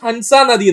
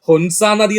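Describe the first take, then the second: First: The first vowel of the name sounds like 'a'. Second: The first vowel of the name sounds like 'u'. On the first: "നമുക്ക് ഹൻസ നദി എന്ന് പറയാം" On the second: "രണ്ട് pronounce ചെയ്യുന്നുണ്ട്"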